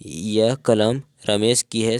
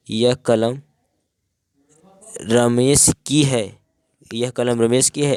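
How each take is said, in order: First: Said in the usual way. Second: Surprise. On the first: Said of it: "सामान्य कथन". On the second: Shown as a demonstration. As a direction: say it as if you can't believe the pen is Ramesh's. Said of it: "आश्चर्य।".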